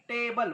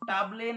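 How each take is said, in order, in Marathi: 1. पहिला स्वर 'ay' आहे. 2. पहिला स्वर दीर्घ 'ah' आहे. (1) "टेबल बघा" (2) "टाबले नाही"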